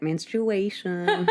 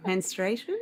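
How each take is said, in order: First: "menstruation" with the "u" sounded: men-stru-AY-shun; imitated pronunciation of menstruation. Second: "menstruation" shortened to men-STRAY-shun, questioning; tentative "menstruation" as men-stray-shun; unsure pronunciation of menstruation. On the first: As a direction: echo her fully sounded "menstruation". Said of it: "I like the way you said". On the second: Shown as a demonstration. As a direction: try "menstruation" without the "u", rising at the end. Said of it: "I don't know the right way to say that".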